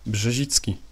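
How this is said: The name is said with a Polish pronunciation.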